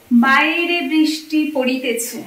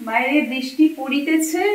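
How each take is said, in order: First: Slow, drawn-out bookish recitation; slow poetic recital. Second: Said in the usual way. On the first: Shown as a demonstration. Vlogger reciting rain line for viewers, slow and poetic. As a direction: savour each word like a line of verse.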